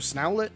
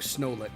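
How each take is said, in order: First: The ending sounds like the word owlet. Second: The ending sounds like a plain let. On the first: The speaker calls it right. "I'm leaning towards Owlet personally, so Snowlet" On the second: The speaker calls it wrong. "I think Snowlet just doesn't"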